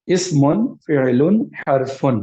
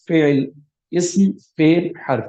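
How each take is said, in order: First: اسمن، فعلن، حرفن said with the full -un ending, slowly and deliberately. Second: فعل، اسم، حرف cut short with no final vowel, slowed; pausal form. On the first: Teacher showing students the written form, with the full endings. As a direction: sound each one out with its -un ending. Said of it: "یہ لکھنے میں فعلن اور اسمن آئے گا". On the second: Teacher showing how to pause on the words, endings dropped. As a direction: stop dead on the last letter of each word, no ending. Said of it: "ایسے پڑھتے ہیں". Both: Shown as a demonstration.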